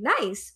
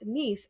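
First: The vowel is like the one in 'nice'. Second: The vowel is like the one in 'niece'. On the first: The speaker calls it wrong. "what I was in my mind saying nice" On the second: The speaker calls it right. "it's actually pronounced niece"

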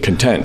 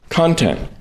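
First: The stress is on the second syllable. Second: The stress is on the first syllable.

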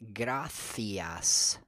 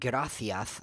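First: The final s is said like an s. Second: The final s is said like a th. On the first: The speaker calls it right. "correctly pronounced gracias" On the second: The speaker calls it wrong. "Not gracias, like some people would want to say when they think that they're making fun of Spanish people"

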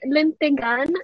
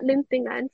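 First: There is a plain g with no nasal before it. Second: There is a nasal 'ng' sound before the g. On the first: The speaker calls it right. "and then lintigan" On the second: The speaker calls it wrong. "not lintingan"

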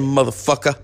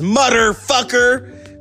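First: The first part sounds like 'mother'. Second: The first part sounds like 'mutter'. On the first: "that's why he says it so well" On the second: "So he's saying mutter"

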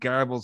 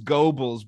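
First: The name has an extra R sound. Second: The name has no extra R sound. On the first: The speaker calls it wrong. "like an ah, that's not there" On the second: The speaker calls it right. "it is Goebbels"

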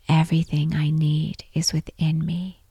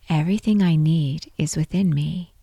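No difference in how they are said.

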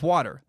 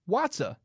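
First: It is said with an American pronunciation. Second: It is said with a British pronunciation. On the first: "instead of water" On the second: "Brits say Watsa"

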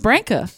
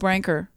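First: The name ends in a plain vowel. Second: The name ends with an added R sound. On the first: The speaker calls it right. "there's no R on the end of your name" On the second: The speaker calls it wrong. "he used to say his name wrong"

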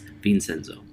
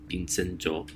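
First: The name is said with an English pronunciation. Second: The name is said with a Korean pronunciation. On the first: "And in English, it's Vincenzo" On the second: "it's in Korean, it's Vincenzo"

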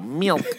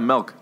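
First: Pinched, nasal voice trying a standard vowel. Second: Plain voice, with the vowel sounding like 'eh'. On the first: "I like have to pinch my nose and go" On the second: "like M-E-L-K"

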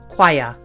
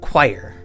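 First: It is said in a British accent. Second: It is said in an American accent. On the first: "Brits pronounce it choir" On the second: "I'm an American, so, and a Midwesterner, so we pronounce it choir"

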